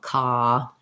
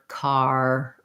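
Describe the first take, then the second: First: The word ends on a vowel without R. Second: The word ends with a clear R sound. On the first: "other languages use non-rhotic R, so they would say like fa or ka, and basically they just color the vowel" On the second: "I'm always using that tight American er sound. That's called a, that's a rhotic R"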